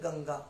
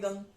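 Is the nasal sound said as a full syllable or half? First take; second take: full; half. First: The nasal is said as a full syllable. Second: The nasal is said as a half sound. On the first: The speaker calls it wrong. "अंगा पूरा नहीं है, वरना क्या हो जाता है?" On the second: The speaker calls it right. "पर यहाँ पे आधा है गंग"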